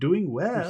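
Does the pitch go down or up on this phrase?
up. The pitch goes up on the phrase. The speaker calls it wrong. "instead of doing well ... instead of up"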